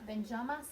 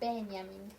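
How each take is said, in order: First: The name is pronounced with French sounds. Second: The name is pronounced with German sounds. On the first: The speaker calls it wrong. "C'est pas Benjamin" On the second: The speaker calls it right. "il faut prononcer à, à l'allemande"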